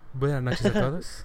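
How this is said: It is said in a flight-attendant voice.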